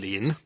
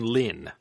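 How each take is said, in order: First: The word is said without a falling tone. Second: The word is said with a sharply falling tone. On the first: It is the common surname character. "not the usual Shuangmu Lin" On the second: It is a less common surname character. "That's fourth tone Lin"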